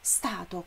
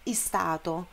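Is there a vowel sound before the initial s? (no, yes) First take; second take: no; yes. First: The word starts directly with the s sound. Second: A short vowel is added before the s. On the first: The speaker calls it right. "começa com S, é dessa maneira" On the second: The speaker calls it wrong. "não é stato"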